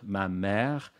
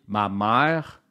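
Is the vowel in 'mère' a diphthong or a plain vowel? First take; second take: plain vowel; diphthong. First: The vowel of mère is a single plain sound. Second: An extra A glides into the vowel of mère. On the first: This is the standard pronunciation. "au lieu de dire ma mère" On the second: This is the Montreal pronunciation. "la fameuse prononciation euh, de Montréal qui fait qu'on dit ma mère"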